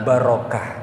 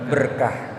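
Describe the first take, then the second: First: The word is said with three syllables. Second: The word is said with two syllables. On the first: This is the more precise form. The speaker calls it right. "Kalau bahasa yang lebih tepat" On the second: This is the everyday local form. The speaker calls it wrong. "orang kita suka nyebutnya apa?"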